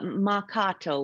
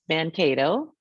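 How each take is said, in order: First: There is no n sound before the k. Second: There is an n sound before the k. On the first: The speaker calls it right. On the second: The speaker calls it wrong.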